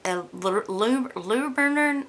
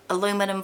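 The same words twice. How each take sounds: First: "aluminum" stumbled over in halting, higher attempts; attempted hometown pronunciation. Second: Said in the usual way. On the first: Shown as a demonstration. Vlogger recalling how she grew up hearing "aluminum", stumbling higher attempt. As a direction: trip over the syllables of "aluminum", attempting it the Southern way. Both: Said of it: "I can't even pronounce it the way I grew up hearing it".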